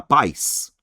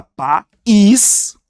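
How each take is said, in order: First: "pais" as one drawn-out diphthong, PAIS; one syllable. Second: "país" split as pa-ÍS, loud stressed ÍS; two syllables. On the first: Teacher shows pais is a monosyllable, said in one beat. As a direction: glide "pais" together in a single slow beat. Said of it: "é uma sílaba só". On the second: Teacher contrasts país with pais, two separate beats. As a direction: break "país" after pa and punch a long ÍS. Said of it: "você tem duas sílabas". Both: Shown as a demonstration.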